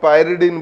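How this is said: The first syllable is said like 'pai'.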